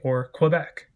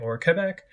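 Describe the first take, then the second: First: It is pronounced in an Americanized way. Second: It is pronounced close to the local way. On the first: The speaker is more nationally minded. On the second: The speaker is more globally minded. "in ways more similar to how people from those places pronounce them"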